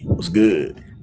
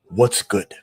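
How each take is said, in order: First: It is said hood-style, without the final D. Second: It is said in a standard American way.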